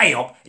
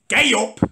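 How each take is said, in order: First: Said in the usual way. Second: High, mocking Scouse call; stupid Scouse voice. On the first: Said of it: "at me, not". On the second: Bloke taunts him walking past, mock Scouse voice. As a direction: mimic a daft Scouse greeting. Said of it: "in his stupid Scouse voice".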